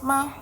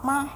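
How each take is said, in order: The two takes are said the same way.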